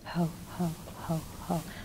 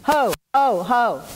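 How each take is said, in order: First: It is said softly and quietly. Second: It is said loudest of all.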